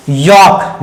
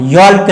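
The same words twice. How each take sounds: First: यॉक with no L sound; silent L. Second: यॉल्क with the L sounded; wrong spoken L. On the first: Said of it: "यॉल्क नहीं पढ़ेंगे". (यॉक, एल बिना बोले) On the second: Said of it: "यॉल्क नहीं है". (यॉल्क, एल बोलकर (गलत)) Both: Shown as a demonstration.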